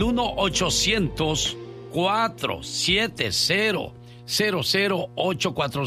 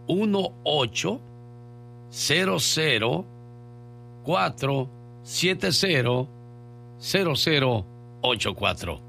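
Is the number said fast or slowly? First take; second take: fast; slowly. First: The number is said quickly. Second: The number is said slowly.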